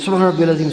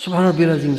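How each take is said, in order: Both takes have the same delivery.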